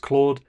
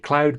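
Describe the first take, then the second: First: The name has a long 'oh' vowel. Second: The name has an 'ow' vowel, like cloud. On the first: "In French, it's Claude" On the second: "in Dutch, they say Cloud"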